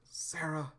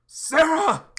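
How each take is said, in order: First: Soft, fading call of her name; weak call. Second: Screamed high and loud; anguished scream. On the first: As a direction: reach out weakly, almost no voice. Weakly reaching out for Sarah. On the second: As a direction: scream her name in horror. Flashback, Sarah stabbed. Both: Acted.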